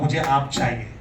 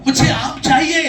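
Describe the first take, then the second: First: Said in the usual way. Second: High, loud call with a laugh; louder demand. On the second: Shown as a demonstration. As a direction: call out for the mango much louder, half laughing. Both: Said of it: "मैं जरा जोर से बोलूंगा".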